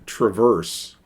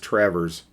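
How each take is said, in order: First: It sounds like the ordinary English word traverse. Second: It sounds like the local name, Travers. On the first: This is how the common word is read. The speaker calls it wrong. "it's not pronounced that way for the city" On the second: This is how the city's name is said. The speaker calls it right. "It's Travers"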